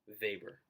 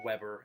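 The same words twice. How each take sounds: First: It is said the German way. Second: It is said as it is spelled. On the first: The speaker calls it right. "It's pronounced Weber" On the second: The speaker calls it wrong. "that's how it's spelled, so it's it's easy to make the mistake"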